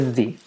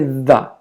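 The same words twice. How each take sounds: First: The word ends in an 'ee' sound. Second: The word ends in an 'uh' sound. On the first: The speaker calls it right. "we have to say the, ... one word that ends with an E sound" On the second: The speaker calls it wrong. "we don't say the. The is for consonant uh, words"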